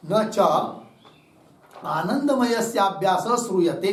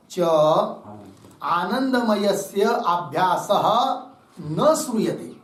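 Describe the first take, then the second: First: Said in the usual way. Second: Slow reading with न set apart and leaning into श्रूयते; slowly phrase न together with श्रूयते; stress on न. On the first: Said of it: "कैसा पढ़ेंगे इसको?". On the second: Shown as a demonstration. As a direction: read slowly, pausing to tie न to श्रूयते. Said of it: "न का अन्वय श्रूयते के साथ".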